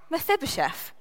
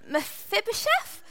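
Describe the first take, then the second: First: The voice falls at the end, sounding certain. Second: The voice rises at the end, sounding unsure.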